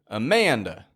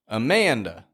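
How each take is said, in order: The two takes are said the same way.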